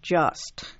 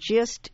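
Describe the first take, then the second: First: The vowel sounds like the vowel in 'just'. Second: The vowel sounds like the vowel in 'gist'. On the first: The speaker calls it right. "instead of just" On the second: The speaker calls it wrong. "insists on saying gist instead"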